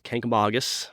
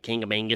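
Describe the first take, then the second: First: The name has no extra 'ng' sounds. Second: The name has extra 'ng' sounds in it. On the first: This is how locals say it. The speaker calls it right. "but it's Kankamagus" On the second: This is how visitors say it. The speaker calls it wrong. "mostly it's Kangamangus, is what they say"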